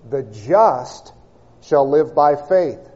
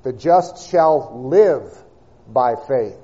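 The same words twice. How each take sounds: First: "just" set apart and hit, then "shall live by faith" follows slower; stress on just. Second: The just shall LIVE by faith, with "live" drawn out and leaned on; slow phrase built around the word "live"; stress on live. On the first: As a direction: pause on "just" and press it before moving on. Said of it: "the emphasis is upon the word just". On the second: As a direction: linger and lean hard on "live". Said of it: "the emphasis would lie upon the word live". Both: Shown as a demonstration.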